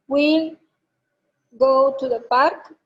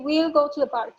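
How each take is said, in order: First: The phrase is said slowly. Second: The phrase is said quickly. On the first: The speaker calls it wrong. "si lees despacio inglés" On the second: The speaker calls it right.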